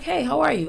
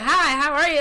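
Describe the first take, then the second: First: It is said in a calm, slightly cold way. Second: It is said in a gushing, overly excited way.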